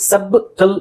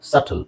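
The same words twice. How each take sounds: First: ಸಬ್ಟಲ್ split "sub-tl" with a clear b; b wrongly sounded. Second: ಸಟಲ್ said "sattl", no b; silent b. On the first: Teacher shows the tempting misreading of subtle, b sounded. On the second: Teacher models correct subtle, b left silent. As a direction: go straight from vowel to t in ಸಟಲ್. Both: Shown as a demonstration. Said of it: "ಬಿ silent ಮಾಡ್ಬೇಕು".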